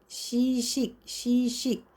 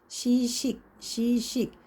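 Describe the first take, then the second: No difference in how they are said.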